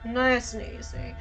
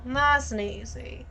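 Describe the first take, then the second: First: It is said without a Southern accent. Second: It is said with a Southern accent. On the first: The speaker calls it wrong. "my vocal cords have forgotten how to do Southern" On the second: The speaker calls it right. "Southern Belle"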